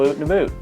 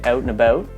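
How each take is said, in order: First: Out is said quickly with a vowel like 'oot'. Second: Out is said slowly with a full 'ow' vowel. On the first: "if I'm talking fast to somebody else who's from Canada" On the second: "like I was talking right now, I say out and about"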